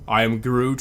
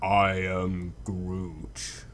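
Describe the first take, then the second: First: The phrase is said at normal length. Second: The phrase is drawn out longer.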